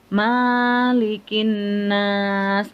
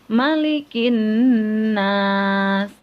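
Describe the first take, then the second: First: The first vowel is drawn out long. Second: The first vowel is said short. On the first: The speaker calls it wrong. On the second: The speaker calls it right.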